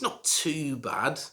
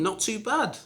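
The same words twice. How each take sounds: First: It sounds lukewarm and noncommittal. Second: It sounds warm and approving. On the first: Something is okay but not brilliant. "this means that it's okay" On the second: Something is quite good. "it means, you know, it's quite good"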